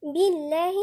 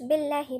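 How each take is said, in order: First: بالله with a clear "bii" at the start; careful, louder بالله as "billahi"; full kasra. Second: بالله with a slack "bel" instead of "bi"; بالله said loosely as "bellahi"; wrong kasra. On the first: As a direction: press a true "i" into the first syllable of بالله. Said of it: "الباء نكسر كويس". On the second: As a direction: let the first vowel of بالله slide toward "e". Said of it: "منقولش". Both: Shown as a demonstration.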